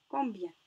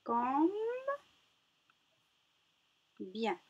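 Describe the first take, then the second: First: Said in the usual way. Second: "Comme bien" as two syllables with a long gap; loud, held first syllable of "Comme bien", then the second. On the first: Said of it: "dans le mot combien". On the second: Shown as a demonstration. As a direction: sound out "Comme bien" for young readers. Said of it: "combien nous avons de syllabes".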